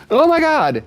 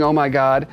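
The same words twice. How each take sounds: First: Squealing cat, much higher and louder; shrieking cat spots a squirrel; startled cat. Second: Said in the usual way. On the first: Acted. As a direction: voice the cat losing its mind at the squirrel. Cat voiced reacting to squirrel.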